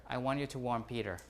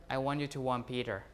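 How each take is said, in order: The two takes are said the same way.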